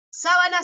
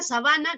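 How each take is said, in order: First: "sábana" high on the first syllable; stress on SÁ of sábana. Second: "sabana" hit on the middle syllable; stress on BA of sabana. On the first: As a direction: hit SÁ in "sábana". (acento en SÁ de «sábana») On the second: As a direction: lean on BA in "sabana". (acento en BA de «sabana») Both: Shown as a demonstration. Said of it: "sábana y sabana sí".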